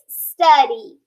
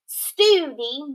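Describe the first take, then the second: First: The first vowel sounds short. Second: The first vowel sounds long. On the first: The speaker calls it right. "it's study" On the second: The speaker calls it wrong.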